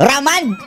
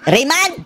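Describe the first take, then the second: First: The name is said as 'Raman', without the 'ay'. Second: The name is said as 'Raymond', with the 'ay'. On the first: The speaker calls it wrong. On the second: The speaker calls it right.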